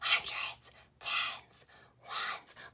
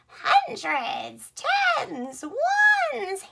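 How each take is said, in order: First: The words are spoken in a whisper. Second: The words are spoken in a cackling witch voice. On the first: "we're gonna whisper it like a secret to somebody" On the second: "Let's do a witchy voice today"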